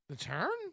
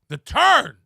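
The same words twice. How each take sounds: First: It sounds hesitant and unsure, like a question. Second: It sounds firm and confident, like a statement. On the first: The speaker doubts the claim. The speaker calls it wrong. "start having a lack of confidence and start going" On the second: The speaker stands firmly behind the claim. The speaker calls it right. "You got to be more sure of yourself"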